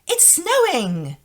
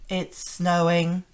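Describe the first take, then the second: First: It is said in a happy, pleased tone. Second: It is said flatly, with no feeling. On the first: The speaker is glad about it. "you would know that I would be happy about this" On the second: The speaker's feelings about it are unclear. "flatly, like that"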